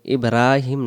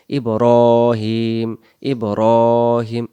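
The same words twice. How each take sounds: First: ইব্রাহিম with an open রা; wrong ibrahim. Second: Slow ইব্রাহিম with রো; correct ibrohim. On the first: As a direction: say ইব্রাহিম with flat রা. (ভুল উচ্চারণ) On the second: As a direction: stretch ইব্রাহিম gently. (সঠিক ইব্রাহিম) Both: Shown as a demonstration. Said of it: "ইব্রাহিম না".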